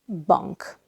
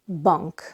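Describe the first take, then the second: Both takes have the same delivery.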